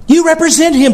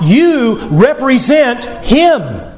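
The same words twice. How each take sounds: First: Pitched up high on YOU; raised emphatic repeat. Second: Drawn out slowly, each word weighted; slow emphatic repeat. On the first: Preacher pressing the point, higher and urgent. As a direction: lift it high and drive it home. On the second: Preacher to congregation, slow and deliberate. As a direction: let it sink in slowly. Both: Acted.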